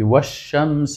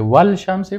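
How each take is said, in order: First: The l is silent and merges into the sh. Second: The l is clearly pronounced before the sh. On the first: The speaker calls it right. "لامش تلفظ نمیشه" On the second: The speaker calls it wrong. "باز غلطه"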